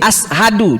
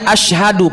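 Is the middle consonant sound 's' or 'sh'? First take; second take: s; sh. First: The middle consonant is an 's' sound. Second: The middle consonant is a 'sh' sound. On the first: The speaker calls it wrong. "dia pakai sin" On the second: The speaker calls it right. "seharusnya asyhadu pakai shin"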